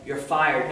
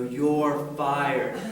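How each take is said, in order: First: It is said at a normal speed. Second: It is said slowly, drawn out.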